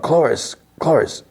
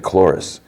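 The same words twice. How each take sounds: First: High-pitched hushed-volume yell of a name; mock calling out. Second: Said in the usual way. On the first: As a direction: imitate hailing someone far away, without real volume. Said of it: "Andor yells out". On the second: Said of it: "She's like".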